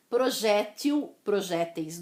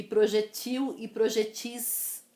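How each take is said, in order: First: "Projétil, projéteis" with open stressed JÉ; "Projétil, projéteis" as pro-JÉ-til, pro-JÉ-teis; stress on second syllable. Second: "projetil e projetis" as proje-TIL, proje-TIS; "projetil e projetis" with long final i; stress on last syllable. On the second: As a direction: land on the endings of "projetil e projetis". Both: Shown as a demonstration. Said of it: "Existem as duas pronúncias".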